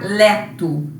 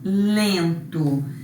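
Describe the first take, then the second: First: The first vowel is oral, not nasal. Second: The first vowel is nasal. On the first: The speaker calls it wrong. "Para a gente não pronunciar leto" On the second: The speaker calls it right. "Para nasalizar esse E"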